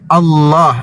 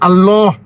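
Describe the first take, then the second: First: The L sound is thick and heavy. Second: The L sound is thin and light. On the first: The speaker calls it right. "tapi Allah dibaca tebal" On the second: The speaker calls it wrong. "bukan Allah"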